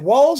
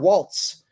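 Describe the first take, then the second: First: It ends without a t sound. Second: It ends with a t sound, like the dance. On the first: "I don't see a T in his name" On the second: "Like the dance"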